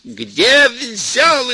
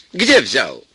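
First: Full shout, much higher and louder; furious mother-in-law yelling at full force; yelling with all her might. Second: Mild demand. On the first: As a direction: scream the question at full strength. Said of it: "изо всех сил кричала". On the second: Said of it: "вернулась и закричала". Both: Acted.

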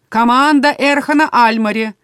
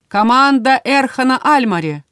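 First: Louder, insistent announcer call; demanding. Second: Loud, high announcer call. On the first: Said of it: "прозвучало уже требовательно". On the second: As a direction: announce the team name loudly. Arena announcer calls team. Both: A narrator's reading.

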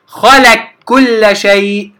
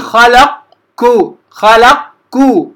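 First: خلق كل with qaf merged into a doubled kaf, slow; correct merging. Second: خلق with qaf fully said before كو, slow; wrong separate qaf. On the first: Teacher showing students the correct merged خلق كل, slow. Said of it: "أنتقل ... إلى الكاف مباشرة المشددة". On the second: Teacher demonstrating to students the wrong خلق كو. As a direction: split خلق and كو instead of merging, slowly. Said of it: "لا أقول ... خطأ". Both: Shown as a demonstration.

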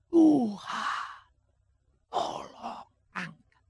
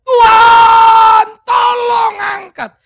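First: Barely voiced, weak begging; faint plea. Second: A high, loud, slow scream for help; desperate shout. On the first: Paul's first plea to God. (permohonan lirih dan lemah) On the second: Acted. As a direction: yell it out at the end of his strength. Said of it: "dia berteriak". (teriakan putus asa yang keras)

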